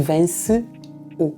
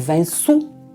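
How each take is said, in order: First: The two vowels are said as separate syllables. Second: The two vowels merge into a single syllable. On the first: "em vez de vence o" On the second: "se une a última sílaba da palavra vence à vogal seguinte"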